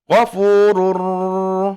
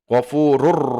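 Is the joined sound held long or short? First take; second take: long; short. First: The joined sound is held long and nasalized. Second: The joined sound is short, with no nasal hold. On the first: The speaker calls it wrong. "Tidak ... tidak ditahan lama" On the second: The speaker calls it right.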